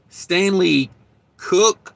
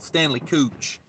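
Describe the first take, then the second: First: The surname ends with a 'k' sound. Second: The surname ends with a 'ch' sound. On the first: This is how other people pronounce the name. "everybody else calls him Stanley Stanley Cook, I think's how they pronounce that" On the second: This is the speaker's own playful version of the name. "that's Cooch in my world"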